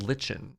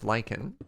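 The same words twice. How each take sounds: First: The first syllable sounds like 'litch'. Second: The first syllable sounds like 'like'. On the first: The speaker calls it wrong. "It's not lichen" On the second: The speaker calls it right. "It's pronounced lichen"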